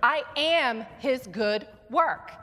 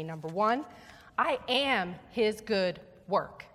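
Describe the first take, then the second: First: Louder, slower, with AM stressed; "I am his good work" slow and strong, stress on "am"; emphatic declaration. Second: Slow model line "I am his good work"; call to repeat. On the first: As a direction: proclaim it like you mean it. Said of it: "say it with emphasis and like you mean it". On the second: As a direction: model the phrase slowly for the congregation. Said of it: "repeat after me". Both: Shown as a demonstration.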